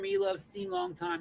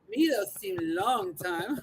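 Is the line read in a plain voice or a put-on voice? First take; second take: plain; put-on. First: It is read in a plain, normal voice. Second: It is read in an exaggerated put-on voice.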